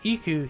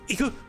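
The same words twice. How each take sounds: First: It is said calmly and plainly. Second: It is said with urgency.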